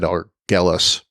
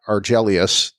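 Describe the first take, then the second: First: The name is said with three syllables. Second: The name is said with four syllables. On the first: The speaker calls it wrong. "I probably said it wrong before. I think I said Argelus" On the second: The speaker calls it right. "Argelius two is the planet"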